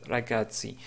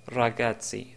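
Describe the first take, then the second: No difference in how they are said.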